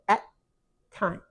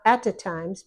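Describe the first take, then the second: First: The words link directly with no extra sound. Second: An extra 'uh' sound comes between the words. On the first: The speaker calls it right. "but at times" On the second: The speaker calls it wrong. "not at a times"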